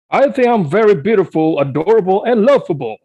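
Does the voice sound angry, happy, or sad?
happy. It is said in a happy voice.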